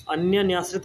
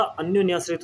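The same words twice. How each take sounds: First: अन्यन्याश्रित read as the wrong form; wrong spelling said. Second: अन्योन्याश्रित said with the o vowel, clearly; correct form. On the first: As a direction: say अन्यन्याश्रित as the incorrect version. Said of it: "कुछ नहीं होता". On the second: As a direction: say अन्योन्याश्रित carefully, the right way. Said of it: "होता है". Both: Shown as a demonstration.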